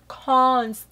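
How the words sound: It is said in a put-on, posh voice.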